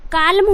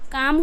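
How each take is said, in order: First: The L sound is pronounced in the word. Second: The L sound is left out of the word. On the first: The speaker calls it wrong. "अगर एल का उच्चारण करते हो तो क्या हो जाएगा, काल्म" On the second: The speaker calls it right. "एल जो है वो साइलेंट ले रहा है तो क्या हो जाएगा, काम"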